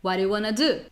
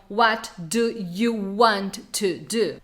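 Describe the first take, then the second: First: The words are reduced and run together. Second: Each word is said fully and separately. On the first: The speaker calls it right. "que você vai ouvir na prática?" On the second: The speaker calls it wrong. "As pessoas não falam assim"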